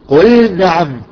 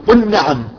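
First: The L sound is pronounced clearly before N. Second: The L sound is merged into the N. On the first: The speaker calls it right. "لا نقول قل نعم وتنزل مباشرة" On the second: The speaker calls it wrong. "احذر من الادغام، بعضهم يقول قل نعم"

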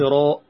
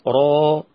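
First: The word ends in a glottal stop. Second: The word ends in a long open vowel. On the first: The speaker calls it wrong. "ما تقولش راء، ما تنطقش همز" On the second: The speaker calls it right. "يبقى انت لما تيجي تقول راء"

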